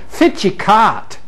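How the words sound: Broad dialect with 'f' for 'wh' and 'ca'. "if you're in Aberdeen and you're speaking Aberdonian"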